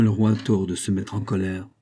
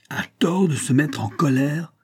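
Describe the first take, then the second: First: Said in the usual way. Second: High-pitched indignant echo, short of a yell; frenzied outrage. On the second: A narrator's reading. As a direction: throw the words back in outrage. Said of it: "hurla le roi avec frénésie". (indignation frénétique, sans vraiment hurler)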